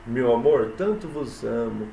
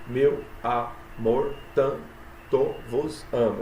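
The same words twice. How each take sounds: First: Said in the usual way. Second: "Meu amor, tanto vos amo" very slow, one syllable at a time. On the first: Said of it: "Olha aí a, a poesia". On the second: Shown as a demonstration. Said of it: "sete sílabas". ("Meu amor, tanto vos amo" escandido, sílaba por sílaba, bem devagar)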